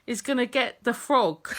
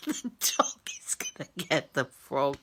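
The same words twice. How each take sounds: First: Said in the usual way. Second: Soft whisper, much lower and breaking into laughter; whispered through giggles. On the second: Real, not acted. Wife repeating her worry about the dog, whispered through giggles. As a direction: whisper it while trying not to laugh.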